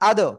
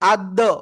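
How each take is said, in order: First: The syllable ends cleanly on the consonant. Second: An extra vowel is added after the final consonant. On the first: The speaker calls it right. "একবারে" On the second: The speaker calls it wrong. "এরকম বলা যাবে না"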